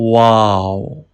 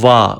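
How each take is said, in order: First: It begins with a w sound, lips rounded. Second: It begins with a v sound, lips not rounded. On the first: The speaker calls it right. "Round your lips and pronounce wow" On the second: The speaker calls it wrong. "Va is wrong pronunciation"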